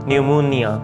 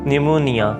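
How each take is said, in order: No difference in how they are said.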